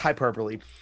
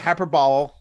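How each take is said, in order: First: The final e is pronounced. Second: The final e is silent. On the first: The speaker calls it right. "but it is hyperbole" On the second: The speaker calls it wrong. "people do say hyperbole"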